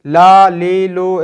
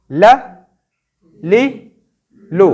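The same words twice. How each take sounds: First: ला, ली, लू drawn out long and a bit louder; wrong long vowels. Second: ल, ली, लू each clipped short and separate; short vowels. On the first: Teacher showing children the long ला, ली, लू to avoid. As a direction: stretch ला, ली, लू to show the error. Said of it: "इस तरह लंबा बिल्कुल भी नहीं करना". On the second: Teacher modelling short ल, ली, लू for children. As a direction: snap off ल, ली, लू quickly. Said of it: "short sign का मतलब शॉर्ट पढ़ना है". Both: Shown as a demonstration.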